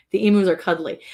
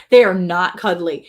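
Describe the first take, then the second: First: Said in the usual way. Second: "not" said louder and slower; stress on not. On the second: Shown as a demonstration. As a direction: lean on "not" to flatly deny it.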